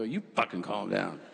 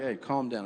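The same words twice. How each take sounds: First: Mock snapping back. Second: Said in the usual way. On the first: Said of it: "I go". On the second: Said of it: "my friends were like".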